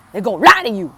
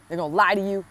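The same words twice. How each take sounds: First: Lie said high and much louder in a put-on voice; a sudden put-on spooky voice, loud and high, on lie; odd dramatic voice. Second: Said in the usual way. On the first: Shown as a demonstration. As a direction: throw the line out in a strange, hammed-up voice. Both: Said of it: "I don't know why I said it like that".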